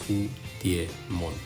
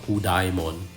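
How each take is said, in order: First: The middle syllable sounds like dee-eh, not dye. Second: The middle syllable sounds like the word dye. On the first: The speaker calls it right. "that's how you should pronounce it" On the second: The speaker calls it wrong. "it's definitely not Hudaimon, even though you know there's D I E there"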